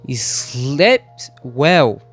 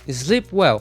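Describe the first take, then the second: First: The final T of the first word is clearly pronounced. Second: The final T of the first word is dropped. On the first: The speaker calls it wrong. "Agora eu enfatizei o som do T" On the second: The speaker calls it right. "Então você fala sleep well"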